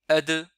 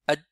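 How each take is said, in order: First: The final consonant is released with an echoing bounce. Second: The final consonant is held silent without release. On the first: The speaker calls it right. "la prononciation correcte" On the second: The speaker calls it wrong. "À peine on n'entend même pas la lettre d'elle"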